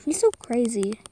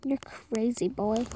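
First: Said in the usual way. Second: Soft teasing whisper. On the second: Pretend. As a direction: breathe it like a secret. Whispered echo of the line before.

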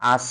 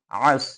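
First: আস begun with a plain vowel, no throat sound; incorrect plain vowel. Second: আস begun from the middle of the throat; throaty ayn. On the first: Teacher showing students what not to say, আস without the throat consonant. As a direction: say আস with an open, unconstricted start. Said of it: "আস কথাটা বলা যাবে না". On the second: Teacher correcting the letter ayn for students, আস from mid-throat. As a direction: squeeze the throat on the first sound of আস. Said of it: "গলার মধ্যখান থেকে আইন". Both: Shown as a demonstration.

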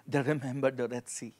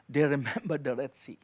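Both takes have the same delivery.

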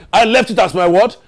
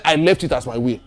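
First: "I left it as my what" with a rise on "what"; prompting question. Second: "I left it as my will" dropping low to a close; falling statement. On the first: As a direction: quiz the congregation, lifting "what" for them to answer. Preacher quizzes congregation for missing word. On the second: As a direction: let "will" fall low, as a final statement. Statement before quizzing congregation. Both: Real, not acted.

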